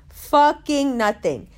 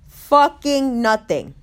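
First: Slow, a bit higher; repeated stress on fucking. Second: Slow emphatic delivery; stress on fucking. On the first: Repeating the punchline to the crowd, slow and emphatic. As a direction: hit "Fucking" again, slower and higher. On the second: Punchline to the crowd, slow emphatic stress. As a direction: lean into the word "Fucking", drawn out. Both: Real, not acted.

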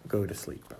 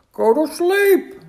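First: Said in the usual way. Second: Slow, high, loud outcry; shouted. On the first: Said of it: "Then he crossed out". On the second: A narrator's reading. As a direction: shout it in astonished excitement. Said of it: "shouted Toad".

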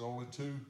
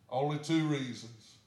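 First: Said in the usual way. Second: Only two reasons, slow, with two leaned on hard; slow down and hit two, louder; stress on two. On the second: Retold or imitated. Church member doubting the new church, stressing two slowly.

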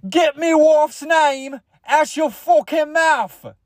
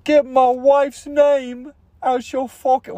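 First: High, slow, hammed-up British outburst; British accent. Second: High, slow, drawn-out angry warning; Will Smith. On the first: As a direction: stretch it into a very high mock-British yell. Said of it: "what if he was British?". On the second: Acted. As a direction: stretch out an outraged high-pitched yell. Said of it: "Will Smith, you know?".

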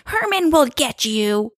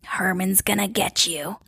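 First: High, drawn-out mock-spooky voice; kids' taunting warning, raised and stretched. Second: Put-on eerie whisper of a child spirit; hushed, menacing ghost-kid whisper; growled whisper. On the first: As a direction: sing out a slow, teasing ghostly threat. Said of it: "all the kids are like". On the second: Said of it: "growl whispered saying".

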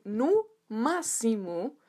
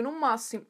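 First: "No máximo" stretched very slowly, word by word; drawn-out emphasis. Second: Said in the usual way. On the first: Real, not acted. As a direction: linger on each word of "No máximo". Repeats volume for emphasis.

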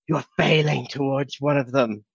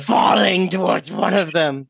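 First: Said in the usual way. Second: FALLING pushed out higher, with drama; dramatic retake. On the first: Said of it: "Rewind there". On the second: Acted. Player rewinds his misread line, dramatic stress on "Falling". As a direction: hit "Falling" big and theatrical. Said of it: "in the whole drama of it all".

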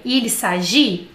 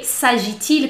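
First: Il s'agit with the final T of s'agit silent, ending on the i; "Il s'agit" said slowly as sa-zhi, no T sounded. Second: S'agit-il with the T clearly sounded, linking into il; "s'agit-il" as sa-zhi-til, T spoken; T pronounced. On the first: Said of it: "Não fala esse T". ("Il s'agit" sem pronunciar o T, terminando em "ji") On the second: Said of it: "Eu falo T". ("s'agit-il" com o T pronunciado: sa-ji-til) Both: Shown as a demonstration.

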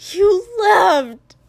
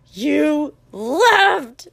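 First: Loud, high anguished cry. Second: Loud, raised-pitch, drawn-out cry; accusing yell. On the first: A narrator's reading. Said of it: "his voice went very high". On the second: Acted. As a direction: stretch both words into a loud accusation. Repeated accusation in the fight.

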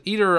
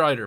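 First: "either" said EE-ther; "either" with a long E first; EE-ther pronunciation. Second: "either" said EYE-ther; "either" with a long I first; EYE-ther pronunciation. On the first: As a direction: start "either" with an ee sound. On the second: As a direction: start "either" with an eye sound. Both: Shown as a demonstration. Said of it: "Is it either or either, Paddy?".

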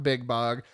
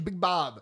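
First: "Bog" ending in a g; wrong name. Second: "Bob" ending in a b; correct name. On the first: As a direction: say "Big Bog" with the final g clear. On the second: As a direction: say "Big Bob" with the final b clear. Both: Shown as a demonstration. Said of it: "not Big Bog".

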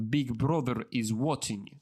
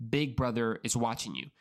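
First: Put-on Russian accent. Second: Said in the usual way. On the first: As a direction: say it like a Russian propaganda slogan. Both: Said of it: "why I think like a Russian accent".

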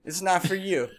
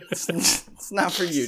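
First: Said in the usual way. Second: Breaking into a laugh mid-line; retelling telling the dog off, cracking up. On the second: Retold or imitated. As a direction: let the laugh spill through the words. Repeating while laughing.

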